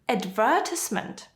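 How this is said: It is said with a British pronunciation. "is British"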